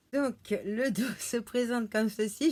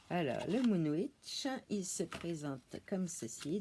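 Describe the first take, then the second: First: Giggling through the words; laughing. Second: Said in the usual way. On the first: Real, not acted. Youtubeuse montrant son oracle, en riant. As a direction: laugh as the cards slip. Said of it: "Je rigole parce que".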